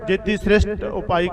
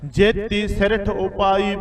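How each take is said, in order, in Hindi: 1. बीच का शब्द 'sht' की ध्वनि पर ख़त्म होता है। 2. बीच का शब्द मूर्धन्य महाप्राण t पर ख़त्म होता है। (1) "ਇੱਥੇ ਆਪਾਂ ਜੇਤੀ ਸ੍ਰਿਸ਼ਟ ਉਪਾਈ ਕਹਿ ਦਿੰਦੇ ਆ" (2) "ਸਿਰਠ ਹੈ, ਠੱਠਾ ਉਚਾਰਨ ਕਰਨਾ ਹੈਗਾ"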